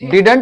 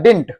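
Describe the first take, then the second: First: The word is said with two full syllables. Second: The word is squeezed into one short syllable. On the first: The speaker calls it wrong. "इसको डिडंट मत पढ़ना" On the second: The speaker calls it right. "इसको पढ़ना डिंट"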